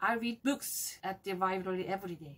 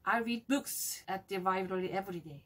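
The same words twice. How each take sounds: First: The word books carries the strongest stress. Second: The same.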